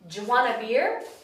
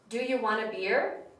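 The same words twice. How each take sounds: First: The words are heavily shortened and run together. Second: The words are only slightly shortened and blended. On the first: "the sentence becomes shorter and shorter every time" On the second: "the sentence becomes shorter and shorter every time"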